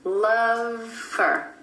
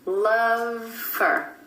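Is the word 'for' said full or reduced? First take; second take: reduced; reduced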